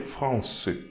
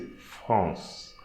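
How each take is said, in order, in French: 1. Une voyelle finale se prononce après le son S. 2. Ça finit sur le son S, pas de voyelle finale. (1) "So we don't say France" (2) "here we are not going to pronounce the E"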